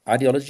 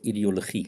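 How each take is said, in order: First: It is pronounced the English way. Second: It is pronounced the Afrikaans way. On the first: "depending if it's English"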